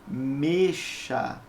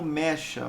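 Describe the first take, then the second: First: The first vowel is a closed e. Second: The first vowel is an open e. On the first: The speaker calls it right. "ela tem o som fechado" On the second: The speaker calls it wrong. "você não produz como mecha"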